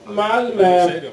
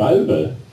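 First: The last vowel sounds like 'e'. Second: The last vowel sounds like 'ö'. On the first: "man säger ett E istället för ett Ö" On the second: "Man säger inte Malmö"

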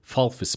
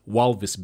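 First: The middle consonant is an F sound. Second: The middle consonant is a V sound. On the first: The speaker calls it right. "the V is an F. So it's Walvis Bay is how you say it" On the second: The speaker calls it wrong. "you'd read it as Walvis Bay"

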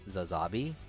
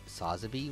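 First: The name begins with a z sound. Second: The name begins with an s sound. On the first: The speaker calls it right. "in the actual show and stuff, it's pronounced Zazabi" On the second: The speaker calls it wrong. "even other YouTubers pronounce it Sazabi"

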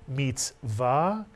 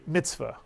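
First: It is said in Sephardic Hebrew pronunciation. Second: It is said in the common everyday pronunciation. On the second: "You'll hear people say mitzvah"

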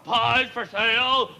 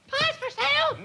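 First: It is said in a lower-pitched voice. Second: It is said in a higher-pitched voice.

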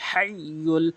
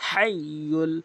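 The two takes are said the same way.

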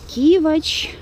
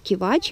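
First: The stress is on the first syllable. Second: The stress is on the second syllable. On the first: "привычнее все-таки и правильнее ставить ударение на первый слог" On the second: "даже в Яндексе я несколько запросов находила, что все-таки это кивач"

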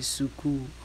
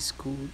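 First: Vowels are added, making it three syllables. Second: The s runs straight into the k. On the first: "they could say suku" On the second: "If they want to say school"

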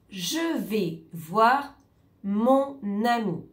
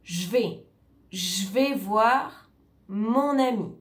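First: The vowel in 'je' is fully pronounced. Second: The vowel in 'je' is dropped. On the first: "Par exemple" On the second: "En général, on dit « je vais voir mon ami ». ... on perd le « e » ici"

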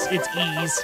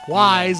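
First: The name does not sound like 'wise'. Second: The name sounds like the word 'wise'. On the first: The speaker calls it right. "it's Ys" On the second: The speaker calls it wrong. "one of those people who pronounces it Wise"

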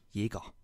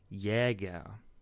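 First: The first vowel sounds like an e. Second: The first vowel is an open ä sound. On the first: The speaker calls it right. "die korrekte deutsche Aussprache ist Jäger. Das Ä wird wie ein verdammtes E gesprochen" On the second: The speaker calls it wrong. "Diese Leute sprechen dann einen Soziolekt"

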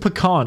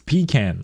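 First: It does not sound like 'pee can'. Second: It sounds like 'pee' followed by 'can'. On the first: The speaker calls it wrong. "It's not fucking pecan" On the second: The speaker calls it right. "like a can you pee in"

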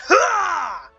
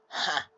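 First: The 'ha' is loud and full of energy. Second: The 'ha' is short, quiet and flat. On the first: The reaction feels triumphant after a kill. The speaker calls it right. "With full enthusiasm" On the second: The reaction feels underwhelming. The speaker calls it wrong. "we just got a mere"

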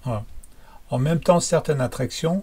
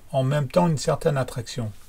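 First: No n sound comes before 'certaine'. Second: A light n sound comes before 'certaine'. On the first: "I'll say it without" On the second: "and then with"

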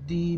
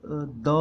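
First: The word ends in a long 'ee' vowel. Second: The word ends in a short 'uh' vowel. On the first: It comes before a vowel sound. "वोवल sound से पहले, तो हम इसको बोलेंगे दी" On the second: It comes before a consonant sound. "कॉन्सोनेंट sound से पहले आएगा तो द"

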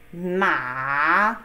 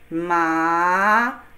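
First: The pitch dips low and then rises. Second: The pitch rises from mid to high. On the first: It means horse. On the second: It means numb.

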